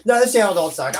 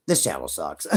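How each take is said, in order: First: Said in the usual way. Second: Much lower, deadpan jab at his own channel; mock self-put-down. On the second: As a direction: drop the voice low and mock yourself. Mock self-insult, then laughs.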